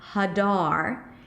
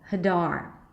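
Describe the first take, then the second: First: Both syllables have full vowels, sounding long. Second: The first syllable is reduced to a weak vowel. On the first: The speaker calls it wrong. "Here I used two pure vowels. One was a secondary stress, the other one was a primary stress" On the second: The speaker calls it right. "focus on the primary stress and reduce the beginning"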